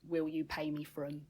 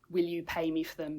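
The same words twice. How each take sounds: First: It is said in a Cockney accent, L dropped. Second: It is said in a standard English accent.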